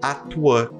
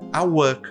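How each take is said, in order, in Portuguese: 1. O t é pronunciado e ligado a work. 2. O t é omitido antes de work. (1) "eu posso me dar ao luxo de juntar tanto a consoante T quanto a vogal" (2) "eu não quero pronunciar o T"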